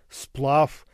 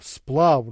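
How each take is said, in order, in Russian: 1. Конечный согласный — глухой «ф». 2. Конечный согласный — звонкий «в». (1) "а" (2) "произносится не"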